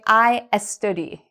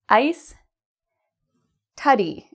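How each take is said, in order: First: An extra e sound comes before study. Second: The s joins I, with no extra vowel. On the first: The speaker calls it wrong. "a common mistake I hear many of my students make" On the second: The speaker calls it right. "I would rewrite this as ice, tuddy"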